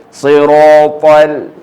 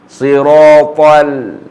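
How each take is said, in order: The two takes are said the same way.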